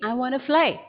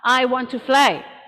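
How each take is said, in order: First: Unstressed words are squeezed together between stresses. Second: Every syllable gets equal, separate stress. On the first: "But your stress timed will be" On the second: "Each syllable will be stressed"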